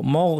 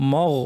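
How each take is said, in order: First: The m is said heavy and full-mouthed. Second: The same.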